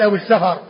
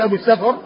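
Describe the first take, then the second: First: السفر as Safar; السفر in two syllables, sa-far; fatha on the fa. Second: Wrong form, السفر as Safr; السفر closed f straight into r; sukun on the fa. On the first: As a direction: say السفر with short a after f. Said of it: "وإنما يقال أبو السفر". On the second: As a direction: say السفر with vowelless f. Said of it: "ما يقال أبو السفر". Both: Shown as a demonstration.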